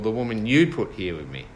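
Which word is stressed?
you. The stress is on the word you.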